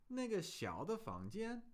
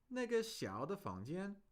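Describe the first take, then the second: Both takes have the same delivery.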